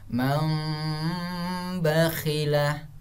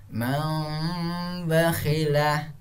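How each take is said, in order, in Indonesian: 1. Bunyi m yang sengau terdengar sebelum b. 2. Bunyi m yang sengau terdengar sebelum b.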